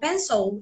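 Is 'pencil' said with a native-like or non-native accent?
native-like. Pencil is said with a native-like accent. The speaker is seen in a better light. The speaker calls it right. "quando você fala pencil, já causa uma outra impressão"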